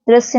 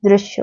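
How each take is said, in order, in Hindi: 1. यह फुफकार वाली आवाज़ साधारण s है। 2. यह फुफकार वाली आवाज़ साफ़ sh है। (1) "दृश्य ना होके" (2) "दृश्य होता है"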